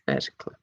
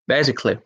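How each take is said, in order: First: Much lower and much softer, tossed off under the breath; a secret murmured tip to the players; hushed aside. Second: Said in the usual way. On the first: Shown as a demonstration. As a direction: drop low and quiet like a sly hint. Quiz host repeats hint as aside.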